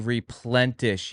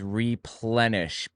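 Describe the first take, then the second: First: The word is said with an added t sound. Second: The word is said without any t sound. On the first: The speaker calls it wrong. "It doesn't say replenish" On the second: The speaker calls it right. "It says replenish, P L E N I S H. There is no T in the word"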